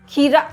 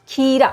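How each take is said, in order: No difference in how they are said.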